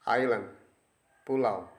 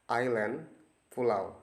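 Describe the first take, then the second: No difference in how they are said.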